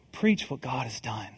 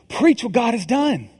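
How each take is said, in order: First: Soft, low echo of the refrain; quiet repeat. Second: Declared louder, a call to the congregation; louder proclamation. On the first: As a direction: let the line settle quietly, like an afterthought. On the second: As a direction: proclaim it like a rallying cry. Repeated sermon refrain. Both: Acted.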